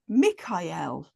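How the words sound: The name is said the Italian way. "more Italian and, you know, European"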